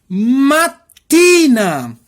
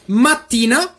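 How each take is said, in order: First: The word is said slowly. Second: The word is said quickly. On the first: "Agora eu vou falar devagarzinho" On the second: "Essa aqui rapidinho"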